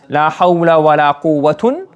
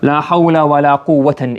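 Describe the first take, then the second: First: The last word ends in 'un'. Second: The last word ends in 'an'. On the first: "It can be marfu" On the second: "or mansub. La mansub would mean here with tanween as well"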